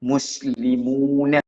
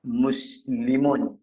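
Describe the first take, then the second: First: Muslimuna said slowly with the final a sounded; slow Muslimuna ending open on a; full Quranic ending. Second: Muslimun said slowly, ending flat on n with a fall; slow muslimun, stopping on the n; ending without vowel. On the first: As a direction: add the a: Muslimuna, as in Quran reading. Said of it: "tu dia punya sebutan dia". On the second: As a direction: model muslimun without the final a. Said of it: "Dalam fitah al-mizmar dia sebut". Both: Shown as a demonstration.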